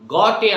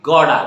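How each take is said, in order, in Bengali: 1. t টা একটা স্পষ্ট, কড়া t ধ্বনি। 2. t টা একটা নরম, ফ্ল্যাপড d-এর মতো ধ্বনি। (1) "গটে আমরা বলবো না" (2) "গড়া ইজ রাইট ওয়ার্ড"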